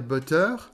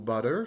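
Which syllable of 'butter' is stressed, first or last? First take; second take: last; first. First: The stress is on the last syllable. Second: The stress is on the first syllable. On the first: The speaker calls it wrong. "le français va dire butter, et il va faire un teur à la fin" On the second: The speaker calls it right. "c'est toujours bas qui est accentué"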